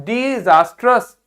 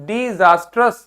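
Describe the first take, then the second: No difference in how they are said.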